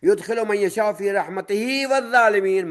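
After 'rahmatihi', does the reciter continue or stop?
continues. The recitation runs on without stopping after rahmatihi. Wrongdoers would also be admitted into God's mercy. The speaker calls it wrong.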